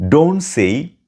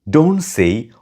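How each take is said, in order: No difference in how they are said.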